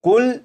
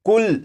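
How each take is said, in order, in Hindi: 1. शब्द का अंत रुके हुए 'l' व्यंजन पर होता है। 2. शब्द का अंत रुके हुए 'l' व्यंजन पर होता है।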